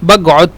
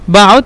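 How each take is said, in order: First: The qaf is said as a g sound. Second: The qaf is said as a glottal stop. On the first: "অথবা গয়েন" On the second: "কফকে দুইভাবে উচ্চারণ করে বাউদ মানে আলিফ"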